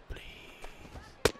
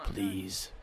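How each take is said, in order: First: Breathless whispered please, no voice at all. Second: Soft plea. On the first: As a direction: beg for the strike in a whisper. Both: Real, not acted. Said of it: "Just give me a strike".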